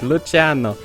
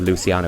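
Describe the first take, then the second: First: The name is said with an Italian pronunciation. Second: The name is said with an English pronunciation. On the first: The speaker calls it right. "it's Italian" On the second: The speaker calls it wrong. "couldn't wrap his head around Italian pronunciation"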